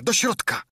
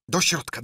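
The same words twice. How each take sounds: First: The repeat flung out much higher and louder; screaming with rage. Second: Blind beggar barking orders, pitch climbing; furious yell. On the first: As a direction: scream it, losing all patience. (wrzask pełen wściekłości) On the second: (wściekły krzyk ślepca) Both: A narrator's reading. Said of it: "Darł się i obrzucał ich przekleństwami".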